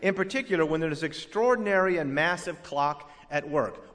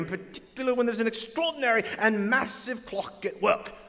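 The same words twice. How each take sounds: First: It is said in the speaker's usual accent. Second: It is said in a British accent. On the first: The claim sounds like plain nonsense. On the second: The same claim seems more scholarly and believable.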